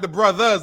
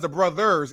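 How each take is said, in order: First: The word ends in a reduced vowel, no 'ers'. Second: The word ends with a full 'ers' sound. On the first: The speaker calls it wrong. "Not the brothers" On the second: The speaker calls it right. "ERS at the end"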